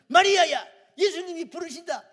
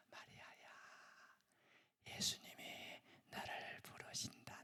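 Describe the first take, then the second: First: A loud, much higher shout of the name, falling hard at the end; bursting through the door, yelling for her sister; bold Martha shout. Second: Changed Martha's whisper. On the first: Martha bursts in yelling for Mary, a loud high shout. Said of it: "이렇게 나가야 이 마르다 스타일이거든". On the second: The changed Martha quietly whispers to Mary in her ear. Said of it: "조용히 문을 열고 조용히 동생 댁에 가서 귀에다가". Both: Retold or imitated.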